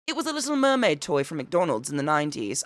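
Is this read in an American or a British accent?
British. It is read in a put-on British accent.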